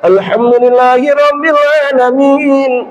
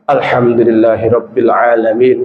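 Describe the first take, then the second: First: It is said with a flowing melodic tune. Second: It is said flatly with no melody. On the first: This is reciting in a sung way. "kalau nyanyi kan" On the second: Reciting with any tune would count as singing. "Enggak boleh ada nada sedikit pun"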